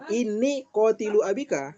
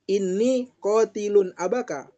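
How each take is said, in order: First: No n sound follows qatil. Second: An n sound follows qatil. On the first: "nggak pakai tanwin" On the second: "pakai tanwin"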